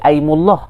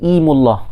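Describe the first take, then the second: First: The word begins with an 'ai' sound. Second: The word begins with an 'i' sound. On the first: The opening hamzah is the firm, always-pronounced kind. "kalau dengan hamzah qata' dia akan jadi aimullah" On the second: The opening hamzah is the connecting kind. "kalau dengan hamzah wasal dia akan jadi imullah"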